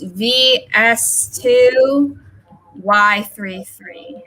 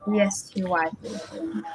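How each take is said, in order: First: Spelling it out slowly, each character clear; slow dictation. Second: Quick, softer second read of the code; quiet repeat. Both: Shown as a demonstration. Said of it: "I need to apologize".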